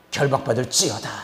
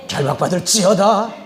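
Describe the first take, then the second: First: Lower, firm falling decree; restrained exorcist's order, pitched down; contained command. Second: Raised, loud exorcist's decree; emphatic preacher's command at full voice; forceful repeated command. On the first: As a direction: pronounce the binding with measured authority. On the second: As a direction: drive the binding order home, voice lifting at the end. Same command repeated with more force. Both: Retold or imitated.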